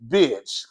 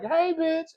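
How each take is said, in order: First: It is said in a nasty, hostile tone. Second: It is said in a friendly, playful tone.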